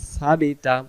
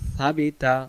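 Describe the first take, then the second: First: The first sound is a soft lisped 'th'. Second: The first sound is a soft lisped 'th'.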